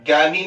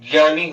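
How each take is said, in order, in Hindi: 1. यह कठोर ग ध्वनि से शुरू होता है। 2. यह ज और नासिक्य ध्वनि से शुरू होता है। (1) "जिसको आप ज्ञानी कहते हो" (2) "ज्ञानी होता है"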